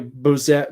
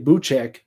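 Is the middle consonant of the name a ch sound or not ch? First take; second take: not ch; ch. First: The middle consonant is not a ch sound. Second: The middle consonant is a ch sound. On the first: "but it's probably ... the American Americanized pronunciation" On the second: "the only C Z's that I've known before is kind of a ch sound. So I'm going to say"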